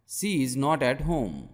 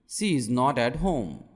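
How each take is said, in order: Both takes have the same delivery.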